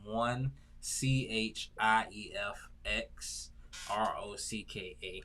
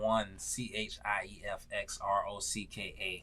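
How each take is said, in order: First: The letters are spelled out more slowly. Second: The letters are spelled out at normal speed.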